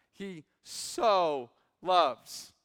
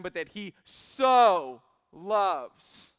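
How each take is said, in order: First: So stretched out slowly and louder; lingering emphasis on so; stress on so. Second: So drawn out slow and loud; but that he so loves with so held and punched; stress on so. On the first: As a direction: lean hard on so in He so loves, drawing it out. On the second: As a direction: savour so and make it swell. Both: Shown as a demonstration. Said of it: "underline this word right here, "so".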